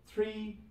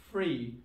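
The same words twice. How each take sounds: First: "Three" with the TH kept, pitched high. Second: "free" for three, F in place of TH. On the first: Teacher giving the form before Cockney, "Three" with TH. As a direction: say "Three" high, without any F. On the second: Teacher showing learners Cockney British, "free" with F for TH. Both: Shown as a demonstration. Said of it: "T H will turn into fur sound".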